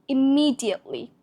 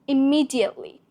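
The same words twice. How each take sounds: Both takes have the same delivery.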